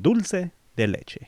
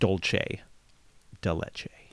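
First: The first vowel of dulce sounds like oo. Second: The first vowel of dulce sounds like oh. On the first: The speaker calls it right. "We say dulce. So dulce de leche" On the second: The speaker calls it wrong. "Not dulce de leche"

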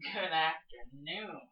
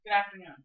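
First: It is said in a suggestive, leering way. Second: It is said as a plain, polite greeting.

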